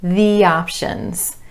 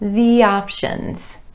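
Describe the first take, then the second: First: A y sound glides between the words. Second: A y sound glides between the words.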